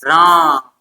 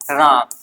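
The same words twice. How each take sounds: First: The long vowel is drawn out much longer. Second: The vowel is held for a normal length.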